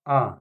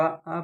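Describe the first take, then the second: First: आ held as the long vowel; full long vowel on आ. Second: आ said as the short vowel; short, quick vowel on आ. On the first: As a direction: draw आ out, the big "aa". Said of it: "बड़का". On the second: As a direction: keep आ brief, the little "a". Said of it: "छोटका आ". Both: Shown as a demonstration.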